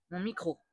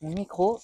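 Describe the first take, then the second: First: Voix lointaine, sans micro, beaucoup plus douce; micro débranché. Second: Said in the usual way. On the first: Shown as a demonstration. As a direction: parle loin du micro débranché. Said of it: "je vais le débrancher". (voix lointaine, micro débranché) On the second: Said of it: "je vais vous le remontrer".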